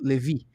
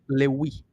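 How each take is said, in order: First: The middle consonant is a v sound. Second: The middle consonant is a w sound. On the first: "Se você pronunciar Va" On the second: "pronunciar o Va, Wa"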